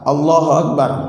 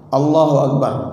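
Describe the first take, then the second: No difference in how they are said.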